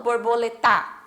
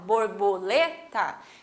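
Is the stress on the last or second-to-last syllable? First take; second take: last; second-to-last. First: The stress is on the last syllable. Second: The stress is on the second-to-last syllable. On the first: The speaker calls it wrong. "mas é o tá no final, mas eu não falo borboleta" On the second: The speaker calls it right. "quando eu falo lê, eu falo, né, até um pouquinho mais alto"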